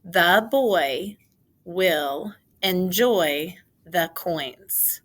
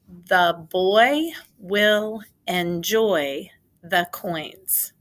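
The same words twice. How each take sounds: First: Put-on The boy will enjoy the coins said slow and louder with the class; slow choral reading. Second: Put-on The boy will enjoy the coins said slow and louder, word by word; slow dictation. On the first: Teacher reading the sentence slowly with students. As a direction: read it slowly together. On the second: Teacher dictating a sentence slowly to the class. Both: Shown as a demonstration. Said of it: "Say it with me".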